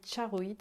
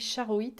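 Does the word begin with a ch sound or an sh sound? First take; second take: ch; sh. First: The word begins with a ch sound. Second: The word begins with a soft sh sound. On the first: This is how the Russian name is really said. The speaker calls it right. "mais ça se dit charoïte en fait, parce que c'est une pierre russe" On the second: This is how the spelling reads. The speaker calls it wrong. "ça s'écrit charoïte"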